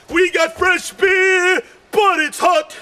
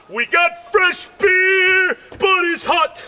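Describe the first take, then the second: No difference in how they are said.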